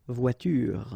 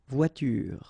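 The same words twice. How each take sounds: The two takes are said the same way.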